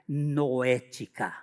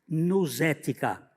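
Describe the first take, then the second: First: No s sound follows 'nou' in the word. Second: An s sound follows 'nou' in the word. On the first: The speaker calls it right. "mas é pronunciada noética" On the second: The speaker calls it wrong. "A nous, nousética"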